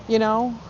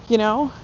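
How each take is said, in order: No difference in how they are said.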